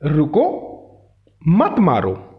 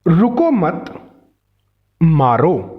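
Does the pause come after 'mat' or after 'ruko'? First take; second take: after ruko; after mat. First: There is a pause right after 'ruko'. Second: There is a pause right after 'mat'. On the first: Stop, do not hit. "रुको के बाद अल्प विराम" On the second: Do not stop, hit. "मत शब्द के बाद अल्प विराम"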